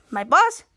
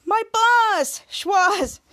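First: "boss" lifted in a rising question; puzzled question. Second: "boss" high and stretched, then falling; hammed-up emphasis on "boss", pitched way up; exaggerated repeat. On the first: Retold or imitated. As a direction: query "boss" with the pitch climbing at the end. Character questions who boss is.

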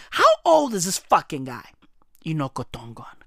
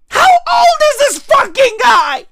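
First: Much lower, softer deadpan mutter. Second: Loud, higher disbelieving shout; incredulous shout. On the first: Muttering the same question to himself, low and deadpan. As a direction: drop it low and flat. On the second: Ranting about the man's age, incredulous shout. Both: Real, not acted.

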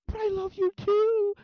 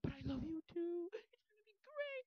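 First: Very loud, high, drawn-out squeal; lovesick bot. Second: Very high, slow, gushing mock voice; emotional bot. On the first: Retold or imitated. Bot declaring love to Junie, overemotional. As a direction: blast out a mock love declaration. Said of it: "she's, like, getting emotions". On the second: Bot gushing to Junie, lovesick. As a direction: gush in a tiny high voice, not shouting. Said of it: "developing emotions".

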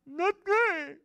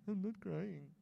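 First: Loud, very high hammed-up wail; mock bawling. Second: Small, soft acted whimper; mock tearful denial. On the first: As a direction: blurt the denial in an exaggerated crying squeal. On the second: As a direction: play a child softly denying their tears. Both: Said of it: "I was crying".

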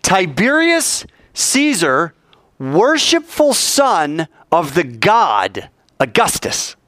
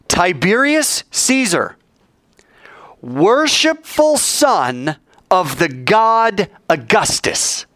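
First: Drawn-out, stately words; slow solemn reading. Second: Each word drawn out like a proclamation; slow solemn reading. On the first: Preacher repeats the coin's inscription to the congregation, slow and stately. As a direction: spell out the inscription slowly a second time. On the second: Preacher reading the coin's inscription to the congregation, slow and grand. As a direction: read the inscription slowly, grandly. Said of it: "This coin says". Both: Shown as a demonstration.

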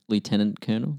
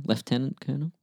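First: Lieutenant said "loo-tenant", colonel as "kernel"; American pronunciation. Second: Lieutenant said "lef-tenant", colonel as "kernel"; British pronunciation. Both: Shown as a demonstration. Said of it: "people say lieutenant when it's spelled like that".

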